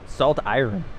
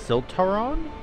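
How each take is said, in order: First: The name is said as two separate words. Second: The name is blended into one word. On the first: The speaker calls it right. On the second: The speaker calls it wrong.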